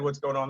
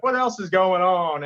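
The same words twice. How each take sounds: First: Said in the usual way. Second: A light take on Seinfeld's slow, higher drawl; Seinfeld impression. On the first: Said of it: "But if I said". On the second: Comic imitating Seinfeld's famous crowd line, lightly. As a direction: lightly mimic Jerry's sing-song opener. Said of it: "it's, like, his voice".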